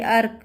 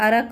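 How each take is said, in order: First: अर्क as "ark", no vowel after र; half-pronounced र. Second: अरक as "a-rak", vowel after र; full र. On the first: Teacher shows pupils how to say it, अर्क with half र. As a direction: say अर्क with र running straight into क. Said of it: "इसको बोलने के लिए". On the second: Teacher shows what a full sound would give, अरक with full र. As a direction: say अरक with a whole "ra" in the middle. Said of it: "पूरा उच्चारण आता तो". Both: Shown as a demonstration.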